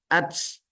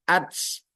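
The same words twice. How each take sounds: First: The final t is released with a hissing s sound. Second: The same.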